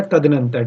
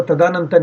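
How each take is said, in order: First: तदनंतर with a short a after the d; falling, corrective tad-a-nan-tar; correct short vowel. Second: तदानंतर with a long aa after the d; faulty ta-daa-nan-tar; wrong long vowel. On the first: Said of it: "क्या होता है?". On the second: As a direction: say तदानंतर, stretching दा. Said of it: "तदानंतर नहीं होता". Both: Shown as a demonstration.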